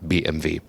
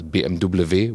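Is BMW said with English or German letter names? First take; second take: German; English. First: The letters are said with German names. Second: The letters are said with English names.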